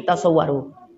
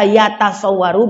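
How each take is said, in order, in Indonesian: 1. Suku kata pertama memiliki vokal 'u'. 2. Suku kata pertama memiliki vokal 'a'. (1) "dibariskan dengan dhammah, yutasawwaru" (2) "Boleh dibaca yatasawwaru"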